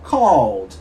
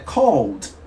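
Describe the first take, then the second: No difference in how they are said.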